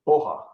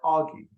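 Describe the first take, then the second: First: The name sounds like 'oh-ha' with no g. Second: The name sounds like 'aw-gee' with a hard g. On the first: The speaker calls it right. "It's pronounced, I believe, properly, Oha" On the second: The speaker calls it wrong. "it looks like Augie ... but that's not how you actually say it"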